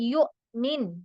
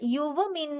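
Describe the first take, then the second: First: A clear glottal stop breaks the word. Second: A w glide replaces the glottal stop. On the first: The speaker calls it right. "നന്നായി മുറിച്ചുച്ചരിക്കുക" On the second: The speaker calls it wrong. "ആരും പറയാൻ പാടില്ല"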